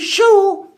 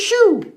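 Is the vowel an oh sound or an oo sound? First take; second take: oh; oo. First: The word is said as spelled, with oh. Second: The word is said with an oo vowel. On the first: The speaker calls it wrong. "we don't say shoe" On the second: The speaker calls it right. "we say shoe"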